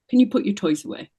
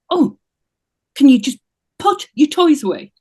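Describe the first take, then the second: First: It is asked in a calm, neutral tone. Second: It is asked in a clearly angry tone.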